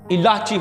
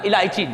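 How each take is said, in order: First: 'La' runs straight into 'chi' with no 'y'. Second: A 'y' sound comes before the final 'chi'. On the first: The speaker calls it right. "इलाची होता है, लाम अलिफ ला आगे चे छोटी है" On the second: The speaker calls it wrong. "इलायची नहीं, इलायची इज इनकरेक्ट"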